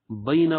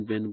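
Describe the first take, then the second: First: بینا said bay-na, with a final a sounded; بینا in full, the final a clearly spoken; بینا with the final vowel kept; correct Arabic bayna. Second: بین cut short as bain, with no final vowel; بین said the casual way, ending on the n; بین clipped to one syllable; common spoken bain. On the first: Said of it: "صحیح عربی میں بینا". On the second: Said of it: "لیکن لوگ کیا کرتے ہیں". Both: Shown as a demonstration.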